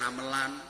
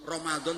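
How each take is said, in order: First: It is said with Javanese-adapted sounds. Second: It is said with Arabic sounds.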